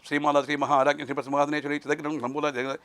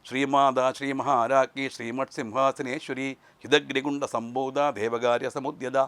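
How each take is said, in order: First: The words are rushed together very quickly. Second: The words are said slowly with clear pauses. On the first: The words lose their meaning and power. The speaker calls it wrong. "വളരെ വേഗത്തിൽ പറയാനും പാടില്ല" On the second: The power of each syllable can be felt. The speaker calls it right. "നിർത്തി പറയണം"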